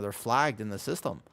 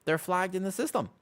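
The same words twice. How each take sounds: First: Said in the usual way. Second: "They're flagged in the system" repeated much higher, indignant; "They're flagged in the system" echoed higher with comic indignation; higher mock indignation. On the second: Real, not acted. Repeats the line, second time raised.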